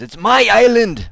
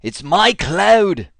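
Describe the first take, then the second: First: Put-on loud, higher, half-hearted Scottish accent shout; Scottish Braveheart yell. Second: Slow, louder, drawn-out mock Scottish war cry; mock Braveheart battle cry. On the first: Retelling the crazy guy in Braveheart, loud mock Scottish yell. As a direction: bellow it like a wild Scottish warrior, bad accent. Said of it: "with a much better Scottish accent than I can". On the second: Presenter parodies the Braveheart line for AWS, mock Scottish shout. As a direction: ham up a Braveheart Scottish rallying yell. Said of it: "it's actually from Braveheart".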